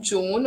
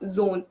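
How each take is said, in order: First: The word begins with a j sound. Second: The word begins with a z sound. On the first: The speaker calls it wrong. "It's not jo- Joan" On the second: The speaker calls it right. "It's zone"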